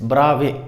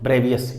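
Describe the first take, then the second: First: It is said as two syllables ending in 'vay'. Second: It is said as three syllables ending in 'vius'. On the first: The speaker calls it right. "It's ब्रावे लेटिस" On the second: The speaker calls it wrong. "This is not ब्रेवियस"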